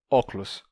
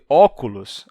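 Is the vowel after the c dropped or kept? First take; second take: dropped; kept. First: The vowel after the c is dropped. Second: The vowel after the c is kept. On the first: "as pessoas pronunciem óculos" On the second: "em vez de óculos"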